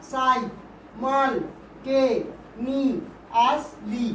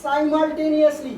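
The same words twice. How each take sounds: First: "সাই, মাল, টে, নি, আস, লি" as six separate syllables with pauses. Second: Said in the usual way. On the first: Shown as a demonstration. Teacher counts syllables for pupils, each said separately. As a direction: count out "সাই, মাল, টে, নি, আস, লি" one beat at a time. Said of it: "ছটা syllable আছে।". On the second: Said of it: "কতগুলো syllable আছে?".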